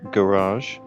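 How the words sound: It is said with an American pronunciation.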